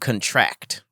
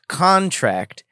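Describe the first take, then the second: First: The stress is on the last syllable. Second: The stress is on the first syllable. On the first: It is a verb, to shrink or tighten. "stress on the last syllable is a verb" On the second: It is a noun, a written agreement. "stress on the first syllable is a noun"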